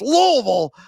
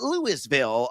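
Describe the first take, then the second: First: It is said the way locals say it. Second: It is said the way outsiders say it. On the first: The speaker calls it right. "I pronounce it correctly uh, for those that live in that area" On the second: The speaker calls it wrong. "It's not Louisville, America"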